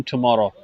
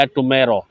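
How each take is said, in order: First: 'tomorrow' with an open 'aw' middle vowel; tomorrow with 'aw'. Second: 'tomorrow' with an 'ay' middle vowel; tomorrow with 'ay'. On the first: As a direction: say tomorrow as "tu-MAW-ro". (tomorrow को "टुमॉरो" बोलें) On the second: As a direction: say tomorrow as "tu-MAY-ro". (tomorrow को "टुमेरो" बोलें) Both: Shown as a demonstration. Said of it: "दोनों तरीके से पढ़ सकते हैं".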